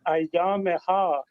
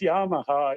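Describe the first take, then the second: First: It is said with a full opening syllable before y. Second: It is said like the brand name Yamaha. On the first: The speaker calls it right. "or Ayyameha" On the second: The speaker calls it wrong. "not Yamaha"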